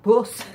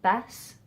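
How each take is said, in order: First: "Bus" much louder, with a posh southern uh vowel; overcorrected posh bus. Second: "bus" with a short Midlands oo vowel, as in "put"; old local bus. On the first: Mocking her trained-out accent, loud posh "Bus". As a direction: overdo a proper, trained "Bus". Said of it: "probably gone too far the other way". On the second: Recalling how she said it back in Stamford, regional "bus". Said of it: "I said things like". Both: Retold or imitated.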